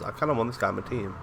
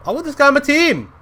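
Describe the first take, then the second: First: Said in the usual way. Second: High, loud, thrilled outburst; excited shout. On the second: Real, not acted. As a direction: shout it like an eager fan. Excitedly repeats wish to recruit him.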